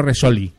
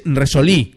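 First: Resoli with the stress on the middle o, the wrong way. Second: Resolí with the stress on the final í; stressed on the last syllable. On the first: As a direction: say Resoli, leaning on the o, not the end. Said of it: "no Resoli". (Resoli con acento en la o) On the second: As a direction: say Resolí, hitting the í at the end. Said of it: "Es Resolí con acento en la I". (Resolí con acento en la í) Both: Shown as a demonstration.

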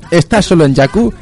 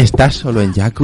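First: Higher, eager ad read; over eager infomercial. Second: Sexy voice. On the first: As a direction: sell it like a late night ad. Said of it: "Voy a intentar leerlo así". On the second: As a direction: say it like a seduction. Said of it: "en plan sexual". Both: Acted.

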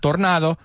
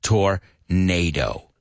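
First: "tornado" as tor-NAH-do; Spanish-vowel "tornado"; wrong tornado. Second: "tornado" slow, tor-NAY-doh; slow correct tornado. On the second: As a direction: drag out "tornado" the English way. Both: Shown as a demonstration. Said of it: "Not tornado".

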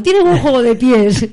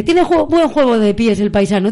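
First: Put-on slower, louder Cantabrian accent on "tiene buen juego de pies". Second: Put-on a light touch of a Cantabrian accent, a little louder. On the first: Host repeats the youtuber's line, hamming up the Cantabrian accent. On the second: Host quotes the Cantabrian youtuber's commentary with a light Cantabrian accent. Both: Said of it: "Con ese acento que tiene".

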